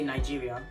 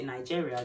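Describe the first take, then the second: First: The word is said in a Nigerian accent. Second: The word is said in a British accent. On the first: The listener is Nigerian. "if I'm speaking to a Nigerian person, I think I would say Nigeria" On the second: The listener is British. "if I'm speaking to a British person, I think I'll say Nigeria"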